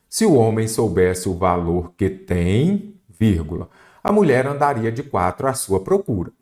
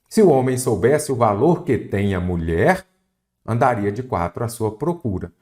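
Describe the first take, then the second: First: There is a pause after 'tem'. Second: There is a pause after 'mulher'.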